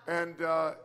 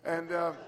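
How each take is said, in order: Both takes have the same delivery.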